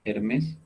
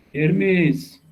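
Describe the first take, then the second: First: Soft, rising "Hermes?"; questioning call. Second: High, drawn-out "Hermes", falling at the end; calling out. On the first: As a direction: say "Hermes" quietly with a questioning lift. Calling on an absent student. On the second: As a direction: call "Hermes" across to someone not answering. Calls louder after no answer. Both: Real, not acted.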